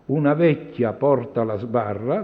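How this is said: The phrase breaks after 'vecchia'.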